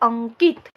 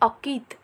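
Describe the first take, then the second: First: A nasal sound follows the first vowel. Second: The first vowel is said without nasal sound. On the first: "हम बोलते हैं अंकित... सिर्फ नाक का प्रयोग कर रहे हैं" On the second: "यहाँ शब्द दिया हुआ है अकित"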